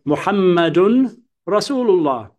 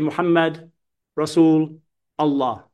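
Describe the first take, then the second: First: Muhammad ends with an un sound, joined through. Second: Muhammad ends on d with no ending vowel. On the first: The speaker calls it right. "When you join through, you mention the ends of the words" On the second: The speaker calls it wrong. "you don't say Muhammad Rasul Allah"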